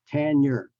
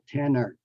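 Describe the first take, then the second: First: The n is a palatal ny sound. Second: The n is a plain n sound. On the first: The speaker calls it right. "but rather the nya, nya sound" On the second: The speaker calls it wrong. "not tenor"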